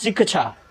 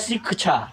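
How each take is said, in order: No difference in how they are said.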